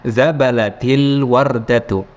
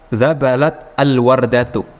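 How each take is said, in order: First: The two words are joined with a linking vowel. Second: The two words are read separately.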